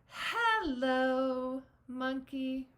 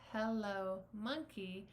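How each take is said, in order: First: The word hello gets a different, marked tone. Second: Both words are said evenly, without special stress.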